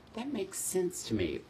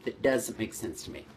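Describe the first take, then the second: First: Sung, quiet, approving nod in voice; sung, agree softly, satisfied; approving hum. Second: Doubtful, puzzled frown in voice; skeptical. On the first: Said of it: "I went". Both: Shown as a demonstration.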